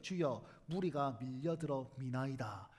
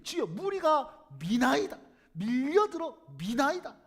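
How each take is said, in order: First: Lower, slow, stately scripture reading; dignified. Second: Louder, slow, seething 무리가 and 미나이다; irritated. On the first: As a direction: say 무리가 solemnly, low and slow. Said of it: "이렇게 점잖하게 얘기했을까요?". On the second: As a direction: fume it out, words dragged. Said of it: "속에서 불이 올라오듯이 그렇게 얘기했을". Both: Shown as a demonstration.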